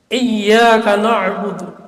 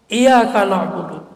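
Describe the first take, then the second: First: The y sound is held and doubled. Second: The y sound is short and single. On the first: Only you we worship. The speaker calls it right. "Ada tasydid" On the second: To the sunlight we worship. The speaker calls it wrong. "kepada cahaya matahari kami menyembah"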